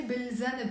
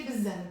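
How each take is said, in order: First: Bil zanb with the l sounded; pronounced article. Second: Bil zanb said as biz-zaneb; dropped article. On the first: Teacher allows the alternative, l pronounced. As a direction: keep a clear l in bil zanb. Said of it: "Now if you say". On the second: Teacher recommends the cleaner form, l dropped. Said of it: "cleaner, clearer to say". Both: Shown as a demonstration.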